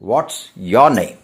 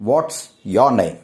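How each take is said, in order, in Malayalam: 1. 'is' എന്ന വാക്ക് 'what'-ൽ ചേർത്ത് ചുരുക്കി പറയുന്നു. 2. 'is' എന്ന വാക്ക് 'what'-ൽ ചേർത്ത് ചുരുക്കി പറയുന്നു.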